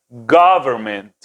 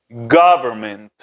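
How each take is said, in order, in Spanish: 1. La primera vocal es una o abierta, como una a. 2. La primera vocal es una o abierta, como una a.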